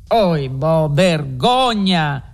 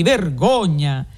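First: A slow, drawn-out cry of shame; indignant outburst. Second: Slow, stretched cry of shame; indignant outcry. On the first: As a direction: Renzo recoils in horror and protests. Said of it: "scappò fuori Renzo". (sdegno trattenuto, lento) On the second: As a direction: say it with more courage now. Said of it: "incoraggito dal vederne degli altri". (grido di sdegno, lento) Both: A narrator's reading.

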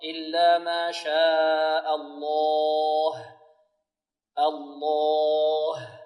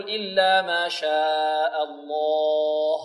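First: Slow chant, long الله released into a light h; light final ha. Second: Slow chanted error, الله ending on a dark heavy h; wrong heavy ha. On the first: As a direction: end الله on a thin, light هـ. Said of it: "الهاء ترقق". (ترقيق هاء الله عند الوقف) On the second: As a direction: thicken the final هـ of الله. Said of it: "الهاء ترقق، لا نقول". (تفخيم هاء الله خطأً) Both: Shown as a demonstration.

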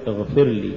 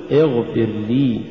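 First: اغفر لي hurried into one word, falling; short لي tacked onto اغفر; words run together. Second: اغفر, then a full, separate لي; separate words. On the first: Teacher shows the mistake, اغفر لي run together. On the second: Teacher models correct recitation, اغفر apart from full لي. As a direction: give لي its own weight after اغفر. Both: Shown as a demonstration. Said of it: "ولا تقل".

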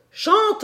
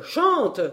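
First: "chante" leapt much higher, rising at the end; soaring call. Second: "chante" called out, falling at the end. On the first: Professor urging the organ to sing, soaring rising call. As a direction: fling "chante" up high. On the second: Professor urging the organ to sing, falling call. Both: A narrator's reading. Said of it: "en me criant".

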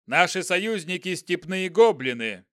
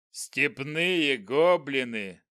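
First: Louder commanding general, brisk pace; haughty general. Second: Slow scornful goblin voice; dark lord. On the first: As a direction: state it like a proud general. General addresses goblin. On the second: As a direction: sneer it like a giant goblin. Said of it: "громогласно произнёс он". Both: Acted.

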